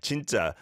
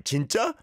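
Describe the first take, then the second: First: "진짜" said with a falling end, like a flat statement; "진짜" ending down, with no question in it; flat falling jinjja. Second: "진짜?" ending on a clear upward rise, like "really?"; "진짜?" asked with rising incredulous pitch; rising disbelief. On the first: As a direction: drop the pitch at the end of "진짜". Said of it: "you sounded like 진짜". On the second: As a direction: lift the end of "진짜?" in disbelief. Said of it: "someone told you something ridiculous". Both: Shown as a demonstration.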